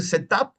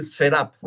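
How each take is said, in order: First: "setup" with a crisp T, "se-tap"; "setup" with an unsoftened T; clear T. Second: "setup" with a flapped T, "serap"; "setup" said the American way, "se-rap"; rounded T. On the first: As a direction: sound the T in "setup". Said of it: "Puedo decir setup". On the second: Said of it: "o puedo decir setup". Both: Shown as a demonstration.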